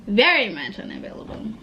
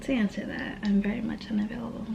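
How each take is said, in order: First: Said in the usual way. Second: Soft, fast whisper, voice gone; coy whisper. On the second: Real, not acted. Vlogger teasing viewers about being taken, whispered. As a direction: let them in on a secret.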